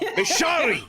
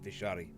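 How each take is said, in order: First: It is said in a raised voice. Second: It is said in a lower voice.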